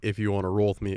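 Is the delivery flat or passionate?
flat. It is said flatly, without much feeling. The speaker calls it wrong. "it wasn't like"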